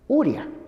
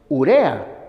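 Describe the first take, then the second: First: The second vowel sounds like i. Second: The second vowel sounds like e. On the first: The speaker calls it wrong. "no se debe decir uria" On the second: The speaker calls it right. "el término correcto es urea"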